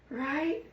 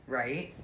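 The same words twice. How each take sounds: First: Much higher, sing-song Right; high squeal. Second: Said in the usual way. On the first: Real, not acted. Repeated question, much higher.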